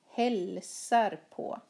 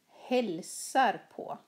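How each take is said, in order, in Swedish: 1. Betoningen faller på verbet hälsar. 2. Betoningen faller på verbet hälsar.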